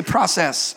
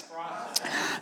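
First: Said in the usual way. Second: "Process." breathed as a soft whisper. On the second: Shown as a demonstration. Pastor whispers the call word to the church, hushed. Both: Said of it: "Somebody say".

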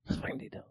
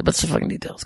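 First: Full whisper, no voice at all; whispered aside. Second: Breathy low aside, barely voiced; unvoiced murmur to yourself; hushed aside. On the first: Acted. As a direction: breathe the words as a secret. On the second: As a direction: say it under your breath.

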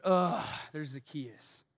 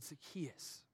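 First: Disgusted. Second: Tender call. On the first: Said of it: "Most people said". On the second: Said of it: "Jesus said". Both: Retold or imitated.

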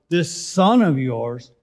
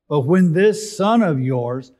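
First: "this son of yours" said slowly, leaning on "this" and "son"; slow, stressed "this son of yours"; pointed this son of yours. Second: Said in the usual way. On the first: Shown as a demonstration. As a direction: drag out "this son of yours" with scorn. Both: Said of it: "not even my brother".

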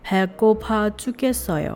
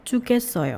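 First: Quick, run-together phrase; fast read. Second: Said in the usual way. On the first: Shown as a demonstration. Teacher showing the fast version to students. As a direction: rattle it off naturally. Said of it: "เวอร์ชันพูดเร็วเนี่ย". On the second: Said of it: "เอาแบบช้าก่อน".

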